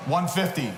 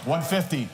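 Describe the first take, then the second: No difference in how they are said.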